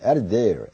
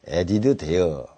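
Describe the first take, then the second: First: The two words are linked with one shared d. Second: The two words are said separately and clearly. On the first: "D가 중복이 되니까 there 한번 발음해서 added there" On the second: "added 되어 라면 좋겠는데"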